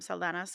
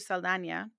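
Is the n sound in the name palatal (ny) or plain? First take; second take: plain; palatal. First: The n is a plain English n sound. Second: The n is a palatal ny sound. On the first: This is the anglicized form of the name. "why she moved from Saldana" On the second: This is the original form of the name. "her credit name is spelt with an ñ"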